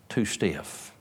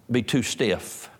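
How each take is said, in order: First: Too stiff dropped much softer; softer repeat. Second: Said in the usual way. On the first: Shown as a demonstration. Preacher echoing the potter's warning, softer repeat. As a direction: let too stiff fall away quietly. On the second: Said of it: "too stiff, too stiff".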